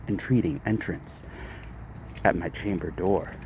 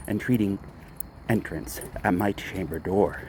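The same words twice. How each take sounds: The two takes are said the same way.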